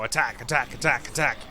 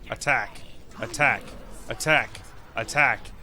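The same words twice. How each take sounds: First: The words are said fast. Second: The words are said slowly.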